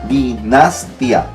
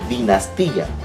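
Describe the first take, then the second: First: The stress falls on 'nas', with 'tia' merged. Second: The stress falls on 'ti', with 'ti-a' separated. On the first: The speaker calls it wrong. "Ojo con rojo estoy diciendo porque no es la forma correcta. Yo separaría dinastia" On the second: The speaker calls it right. "sino yo digo dinastía"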